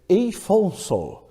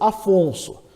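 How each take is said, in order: First: The name begins with an 'ei' diphthong. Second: The name begins with a plain 'a' vowel. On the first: The name is read by English spelling rules. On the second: The name is read as it is normally said.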